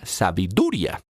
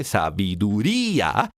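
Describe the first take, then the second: First: "sabiduría" misread as sa-bi-DU-ria, final ia in one syllable; "sabiduría" with the last two vowels run together, stress on du; misread as diphthong. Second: "sabiduría" drawn out slowly, í and a as two separate syllables; hiatus, stress on í. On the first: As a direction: stress the du in "sabiduría" and glide through ia. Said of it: "las últimas dos letras hacen parte de la misma sílaba". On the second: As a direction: stretch the stressed í in "sabiduría", then a distinct a. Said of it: "porque es grave, sabiduría, y termina en vocal". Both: Shown as a demonstration.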